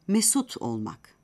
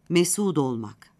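First: The t stays hard before the next vowel. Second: The t softens to d, linked to the vowel.

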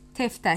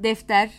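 First: The word begins with a t sound. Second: The word begins with a d sound. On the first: This is the regional dialect form. "D sesi bazen T'leşiyor" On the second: This is the standard form. "D sesi bazen T'leşiyor"

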